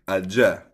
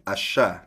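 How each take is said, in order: First: It is said in a Colombian accent. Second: It is said in an Argentine accent. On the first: "Sa Colombia siguro" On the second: "like dito sa Argentina"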